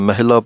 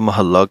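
First: The middle syllable is said as 'hil'. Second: The middle syllable is said as 'hal'. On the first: The speaker calls it wrong. "ਮਹਿਲਾ ਪਾਠ ਨਹੀਂ ਕਹਿਣਾ" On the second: The speaker calls it right. "ਮਹੱਲਾ ਕਹਿਣਾ ਹੈ"

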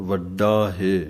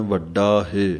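Both takes have the same delivery.

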